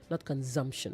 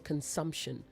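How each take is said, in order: First: The middle consonant is a buzzing z sound. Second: The middle consonant is a hissing s sound. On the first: The speaker calls it wrong. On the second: The speaker calls it right. "you should know consumption"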